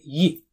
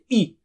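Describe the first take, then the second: First: The syllable starts with a clear y sound. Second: The syllable starts straight on the vowel. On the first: The speaker calls it right. "make sure you say ye" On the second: The speaker calls it wrong. "you may miss it and you may say e"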